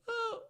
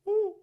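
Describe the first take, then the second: First: The vowel sounds plain, without a hollow quality. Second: The vowel sounds hollow, like a hooting owl. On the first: "If my larynx is up" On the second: "it sounds to me like a hoot owl"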